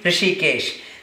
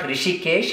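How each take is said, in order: First: The word begins with an h sound. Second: The word begins without an h sound. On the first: The speaker calls it right. "it should be Hrishikesh" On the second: The speaker calls it wrong. "It's not Rishikesh"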